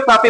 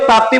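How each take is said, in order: First: तापी as taa-pee, a plain 'p' before the long ee; pronunciation variant तापी. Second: ताप्ती in two syllables, taap-tee; pronunciation variant ताप्ती. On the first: Teacher showing students the other name of the river, तापी said without the 't'. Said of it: "कई लोग तापी बोलते हैं". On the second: Teacher showing students one name of the river, ताप्ती said with the 'pt' cluster. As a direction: say ताप्ती with a 't' sound after the 'p'. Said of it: "कई लोग ताप्ती बोलते हैं". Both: Shown as a demonstration.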